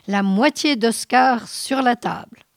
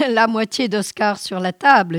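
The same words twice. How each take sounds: First: Shouting louder. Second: Louder, wild yell with the knife raised; hysterical yelling. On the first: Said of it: "Il criait de plus en plus fort". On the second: Halvor yelling after Nils who fled, hysterical and loud. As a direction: bellow it after the slammed door. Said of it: "en hurlant". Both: A narrator's reading.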